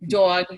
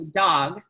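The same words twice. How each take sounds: First: The vowel has a Northeastern US accent. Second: The vowel has a general American accent. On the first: "the way that my grandmother talked" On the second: "as opposed to dog"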